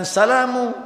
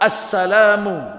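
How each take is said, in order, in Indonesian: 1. Kata ini langsung diawali 's'. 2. Kata ini diawali bunyi 'a'. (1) "bukan salamu" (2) "Yang benar assalamu"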